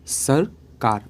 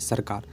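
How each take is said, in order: First: There is a pause between the two syllables. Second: The two syllables run together without a pause. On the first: "बीच में pause हो जा रहे हैं, यानी कि रुक रहे हैं। सर कार अलग अलग लग रहा है ना" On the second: "पढ़ रहे हैं सरकार"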